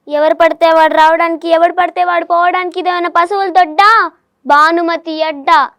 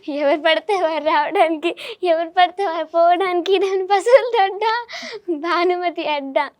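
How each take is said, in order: First: It is said in an angry tone. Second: It is said in an excited tone.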